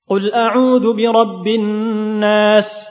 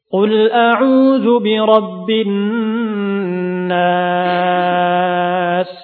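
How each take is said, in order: First: The recitation is fast with short vowel lengthening. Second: The recitation is slow and calm with long vowels. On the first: It suits quick review when time is short. "adapun hadir yaitu cepat dalam membaca" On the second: It suits teaching and learning. "Adapun tahqiq dilambatkan"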